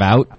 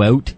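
First: The word is said with a non-Canadian vowel. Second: The word is said with a Canadian vowel. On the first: "instead of out" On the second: "I always change my accent every time I come home from Canada"

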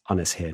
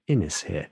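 First: The name has a Welsh-style pronunciation. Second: The name has an English-style pronunciation. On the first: The speaker calls it right. "It's Ynys here" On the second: The speaker calls it wrong. "not Ynys here"

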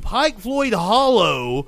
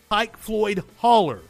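First: The last word ends with an 'oh' sound. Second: The last word ends with an 'er' sound. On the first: This is the standard, outsider form of the name. The speaker calls it wrong. "Saying Pike Floyd Hollow sounds fucking stupid" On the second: This is how the locals say the name. The speaker calls it right. "that's what everybody in the community called it"

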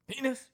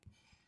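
First: The word is said more loudly. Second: The word is said very quietly.

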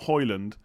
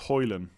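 First: The name ends with a D sound. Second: The name ends without a D sound. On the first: The speaker calls it wrong. "It's not Hoyland" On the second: The speaker calls it right. "You don't pronounce the D at the end"

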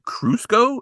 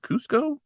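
First: The word is said with an added r sound. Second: The word is said with no r sound. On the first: The speaker calls it wrong. "He's adding like an R in there" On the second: The speaker calls it right. "instead of Cuzco"

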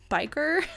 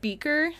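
First: The first vowel sounds like 'eye'. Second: The first vowel sounds like 'ee'. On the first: The speaker calls it right. "His name is Biker" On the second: The speaker calls it wrong. "They pronounce the sheriff's name wrong. They said Beaker"

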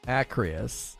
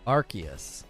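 First: The C sound comes before the R sound. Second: The R sound comes before the C sound. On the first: The speaker calls it wrong. "I was totally flipping the C and the R" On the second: The speaker calls it right.

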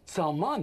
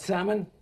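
First: The stress is on the second syllable. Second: The stress is on the first syllable. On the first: The speaker calls it right. "there's an accent on the second syllable" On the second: The speaker calls it wrong. "It's not Salmon?"

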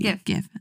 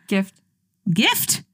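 First: The word ends without a t sound. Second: The word ends with a t sound. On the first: The speaker calls it right. "Just drop the T" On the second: The speaker calls it wrong. "I thought it was gift"

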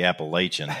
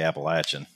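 First: The word is pronounced the Northern way. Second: The word is pronounced the Kentucky way. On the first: This is how Northerners say it. The speaker calls it wrong. "We Northerners say Appalachian" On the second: This is how locals say it. The speaker calls it right. "We people that are correct say Appalachian"

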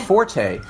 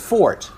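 First: The word is said with two syllables. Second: The word is said with one syllable. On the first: This is how most people say it. The speaker calls it wrong. "most people pronounce it forte" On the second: This is the correct but less common way. The speaker calls it right. "the actual pronunciation is fort"

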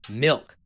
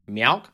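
First: The word has a short, plain vowel. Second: The vowel is stretched into a 'meow' sound. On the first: It is the speaker's own way of saying the word. The speaker calls it right. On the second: It imitates how someone else says the word. The speaker calls it wrong.

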